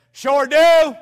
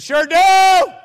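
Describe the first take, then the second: First: A firm, loud "Sure do"; loud answer. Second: Shouted "Sure do", much louder and higher; intimidating shout. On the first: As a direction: boom it out to sound bold. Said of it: "I like talking loud". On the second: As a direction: blast it to intimidate. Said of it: "when you talk loud". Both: Retold or imitated.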